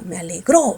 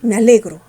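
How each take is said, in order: First: The stress is on the last syllable. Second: The stress is not on the last syllable. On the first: The speaker calls it right. "también es una palabra aguda" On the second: The speaker calls it wrong. "¿así? No"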